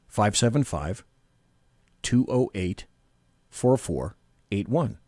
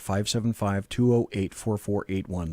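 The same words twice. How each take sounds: First: The number is read at a slower pace. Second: The number is read at a quicker pace.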